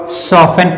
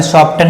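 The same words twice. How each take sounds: First: "सॉफ्टन" said as SOF-en, no t; "सॉफ्टन" with f straight into -en; silent t. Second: "सॉफ्टन" said as SOF-tun, t sounded; "सॉफ्टन" with a hard t after f; wrong pronunciation. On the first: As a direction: leave the t out of "सॉफ्टन". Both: Shown as a demonstration. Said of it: "सॉफ्टन नहीं पढ़ते हैं".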